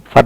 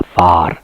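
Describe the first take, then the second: First: "फर" with a short uh, like fur; short vowel. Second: "फार" with a long open aa, lower. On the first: Teacher showing what not to read, short-vowel pronunciation. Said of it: "फर नहीं पढ़ना है". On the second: Teacher giving the correct reading, long aa pronunciation. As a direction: stretch the vowel in "फार". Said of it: "फर मत पढ़िएगा". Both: Shown as a demonstration.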